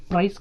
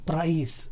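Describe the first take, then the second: First: ప్రైస్ with a quick "ai", no long glide; don't open out the vowel in ప్రైస్; short tight vowel. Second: ప్రైస్ as "praa-is"; long a gliding into i in ప్రైస్; diphthong glide. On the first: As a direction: say ప్రైస్ as one short "prais". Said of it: "కాదు". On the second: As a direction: open out both sounds in ప్రైస్. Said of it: "ప్రైస్ అనాలి". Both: Shown as a demonstration.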